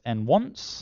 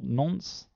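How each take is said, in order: First: It is said as 'n' plus the word 'once'. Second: It is said as one syllable rhyming with 'sconce'. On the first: The speaker calls it right. "really designed to be pronounced as n-once" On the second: The speaker calls it wrong. "not nonce"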